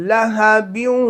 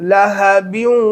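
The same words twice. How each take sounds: The two takes are said the same way.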